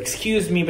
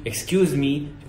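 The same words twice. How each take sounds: First: "excuse me" in a native-like English accent. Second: "excuse me" in plain Saudi-accented English. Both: Shown as a demonstration. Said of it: "بدل ما تقول excuse me".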